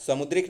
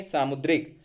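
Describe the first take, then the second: First: समुद्रिक with short first A; wrong form समुद्रिक. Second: सामुद्रिक with long AA after स; correct form सामुद्रिक. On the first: Teacher rejects the short vowel, mistaken form. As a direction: say समुद्रिक, sa-mud-rik. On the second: Teacher corrects समुद्रिक, long-vowel form. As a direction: stretch the सा in सामुद्रिक. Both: Shown as a demonstration. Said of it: "समुद्रिक नहीं".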